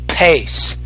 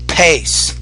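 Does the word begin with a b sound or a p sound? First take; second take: p sound; p sound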